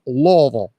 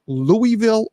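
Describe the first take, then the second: First: Louisville run together as LAW-vul; squashed local Louisville. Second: Louisville as three syllables, LOO-ee-vil; Louie-ville in full. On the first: Host offers Wilma her own version, Louisville as LAW-vul. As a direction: swallow Louisville down to two syllables, LAW-vul. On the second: Host asks one last time, Louisville as LOO-ee-vil. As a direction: say every syllable of Louisville, silent S. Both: Shown as a demonstration. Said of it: "is it pronounced Louisville or".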